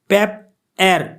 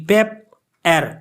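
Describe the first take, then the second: Both takes have the same delivery.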